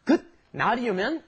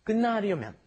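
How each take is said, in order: First: 끝나려면 with a clear T sound, kkeut-na-ryeo-myeon; wrong way with T. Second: 끝나려면 with the T turned to N, kkeun-na-ryeo-myeon; correct with N. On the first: Teacher showing students the wrong pronunciation, T sounded clearly. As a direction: pronounce the T in 끝나려면 on purpose, as the mistake. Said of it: "you don't pronounce that T there". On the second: Teacher giving the correct pronunciation, T becomes N. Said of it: "It turns into an N". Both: Shown as a demonstration.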